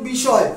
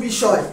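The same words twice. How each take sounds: The two takes are said the same way.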